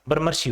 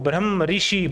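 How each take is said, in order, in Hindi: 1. दोनों हिस्से एक शब्द में जुड़ जाते हैं। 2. दोनों हिस्से अलग-अलग शब्दों की तरह बोले जाते हैं। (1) "तो इसका उच्चारण क्या हो जाएगा, ब्रह्मर्षि हो जाएगा" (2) "इसको तोड़ेंगे"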